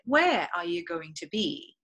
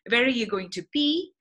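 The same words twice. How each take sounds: First: The main pitch emphasis falls near the beginning. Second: The main pitch emphasis falls near the end. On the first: "Versus in British English, you say" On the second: "in American English, the intonation is always at the end of the sentence"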